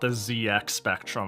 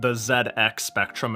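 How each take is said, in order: First: The letter Z is said the American way. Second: The letter Z is said the European way. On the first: "and not" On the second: "I'm like fucking Europe pilled when I call it"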